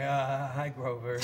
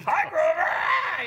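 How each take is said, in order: First: Small, low, bashful hello; lightly played awestruck child, hesitant; starstruck kid. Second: Very high, loud cartoon yelp; stage persona voice. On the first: Grown man meeting childhood puppet hero, bashful kid hello. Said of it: "I really became a kid". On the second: Shown as a demonstration. Comic showing his act resembles the puppet, yelped high. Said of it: "it's really close".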